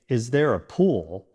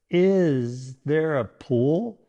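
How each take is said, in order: First: The stress falls on the word pool. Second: The stress falls on the word there. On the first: The speaker is interested in the pool. The speaker calls it right. "you're emphasizing your interest in the pool" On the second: The speaker is unsure whether a pool exists. The speaker calls it wrong. "if you stress the wrong word like this"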